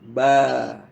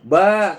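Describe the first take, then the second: First: The syllable ends open, released without a stop. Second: The syllable ends with an abrupt glottal stop. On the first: The speaker calls it right. "dia dilepas saja" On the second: The speaker calls it wrong. "seolah-olah di belakang itu ada hamzah"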